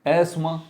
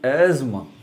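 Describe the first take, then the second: First: A plain s sound is pronounced mid-word. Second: A z sound is pronounced mid-word. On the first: The speaker calls it wrong. "एस की आवाज़ नहीं आएगी" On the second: The speaker calls it right. "जेड की आवाज़ आवाज़ आएगी"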